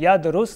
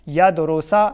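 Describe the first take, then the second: First: The word ends on the consonant s. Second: The word ends in a short a vowel. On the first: "यदरुसा या यदरुस नहीं पढ़ेंगे" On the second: "यदरुसा या यदरुस नहीं पढ़ेंगे"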